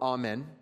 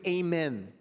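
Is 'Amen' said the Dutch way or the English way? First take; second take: Dutch; English. First: Amen is said with a Dutch pronunciation. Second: Amen is said with a plain English pronunciation.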